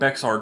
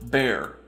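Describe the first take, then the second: First: It has a 'ks' sound, like 'bex-ar'. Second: It sounds like 'bear', with no 'ks' sound. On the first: The speaker calls it wrong. "Everybody is going to call it Bexar Goods" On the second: The speaker calls it right. "which he notes is pronounced Bear"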